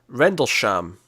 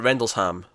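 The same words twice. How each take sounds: First: The name ends with a 'sham' sound. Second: The name ends with a 'ham' sound. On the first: "Is it Sham or Ham at the end?" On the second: "Is it Sham or Ham at the end?"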